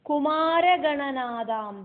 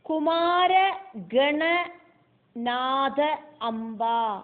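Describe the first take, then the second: First: The parts are run together as one word. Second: The parts are said as separate words.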